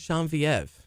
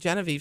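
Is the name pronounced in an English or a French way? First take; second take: French; English. First: The name is said with French pronunciation. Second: The name is said with plain English pronunciation. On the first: "She likes it pronounced in the French way" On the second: "If I say Genevieve, she gives me a dirty look"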